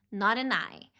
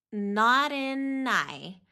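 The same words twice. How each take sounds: First: Said in the usual way. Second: NOT AN I stretched slowly into one word; full linking. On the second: Shown as a demonstration. Teacher showing the whole linking, slowly joined. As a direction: link "not an I" slowly, without gaps. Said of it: "quando nós fazemos a ligação toda".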